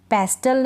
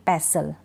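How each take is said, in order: First: "पेस्टल" with the T sounded; mispronounced "पेस्टल", T not silent; wrong pronunciation. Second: "पेसल" with a silent T; lower-pitched model "पेसल", no T; correct pronunciation. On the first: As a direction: hit a hard T after S in "पेस्टल". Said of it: "पेस्टल नहीं". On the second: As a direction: leave out the T in "पेसल". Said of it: "ध्यान रखें आप ये". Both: Shown as a demonstration.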